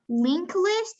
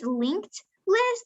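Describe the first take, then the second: First: The first word ends without a t sound. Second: The first word ends with a t sound. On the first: The speaker calls it wrong. "it's not link list" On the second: The speaker calls it right. "it's linked list"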